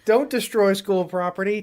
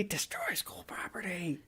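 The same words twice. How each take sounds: First: Higher, pushed-out quote; raised quoting voice. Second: Slow, drawn-out whisper; whispered echo. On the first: Co-host quoting a show for his partner, raised scolding voice. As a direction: call it out like a scolding. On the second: Co-host echoing his own show quote, slow whisper. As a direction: whisper it slowly, much softer. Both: Acted.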